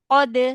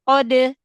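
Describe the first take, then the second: No difference in how they are said.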